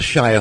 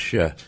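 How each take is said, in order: First: The vowel is a full 'eye' sound. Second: The vowel is reduced to a short 'uh'. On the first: "we have the Shire horse" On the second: "However, it's pronounced Shire"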